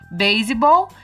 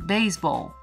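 First: It is said with a Brazilian Portuguese pronunciation. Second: It is said with an English pronunciation. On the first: This is how the word is said in Brazil. "Aqui a gente fala baseball" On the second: This is how English speakers say the word. "lá eles falam baseball"

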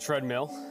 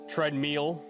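First: The word is said with a standard pronunciation. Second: The word is said with a southern mispronunciation. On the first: This is how it is commonly said. The speaker calls it right. "as opposed to treadmill" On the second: This is how the partner says it. The speaker calls it wrong. "Your southern draw and mispronunciation of very commonly used words like treadmill"

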